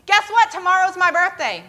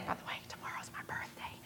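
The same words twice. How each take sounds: First: High, loud birthday announcement; excited announcement. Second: Quick, very soft whisper; whispered aside. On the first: Retold or imitated. Girl tells her friend about her birthday, excited. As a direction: burst out with big news, pitched up. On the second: Real, not acted. Speaker slips in own birthday to listeners, whispered aside. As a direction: slip it in as a hushed aside.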